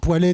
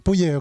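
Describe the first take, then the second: First: The name starts with a 'pwa' sound. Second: The name starts with a 'poo' sound. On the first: The speaker calls it wrong. "tout ça exclu" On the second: The speaker calls it right. "mais c'est Pouillet"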